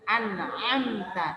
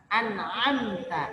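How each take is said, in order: The two takes are said the same way.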